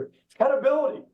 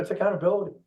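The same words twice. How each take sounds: First: "accountability" lifted high and pushed out with a strong rising tune; stress on accountability. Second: Said in the usual way. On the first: Real, not acted. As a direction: land hard on "accountability", pitch jumping up. Coach stresses key word.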